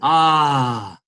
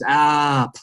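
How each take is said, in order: First: The vowel is held open without a closing consonant. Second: The vowel is cut off sharply by a consonant. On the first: The emotion flows on. "that's an emotion, that's a vowel" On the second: The emotion is cut off. "it just cuts it right there"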